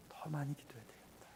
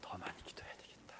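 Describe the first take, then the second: First: Unvoiced whisper leaning on 많이, falling; whispered resolve. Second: Faint unvoiced whisper, stress on 더; whispered resolve. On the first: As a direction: hush it, weight on 많이. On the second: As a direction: murmur 더 많이 기도해야 되겠다 barely audible. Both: Repeated inner resolve, whispered.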